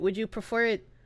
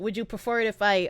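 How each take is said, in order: First: It is said in his normal voice. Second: It is said in a girlish put-on voice.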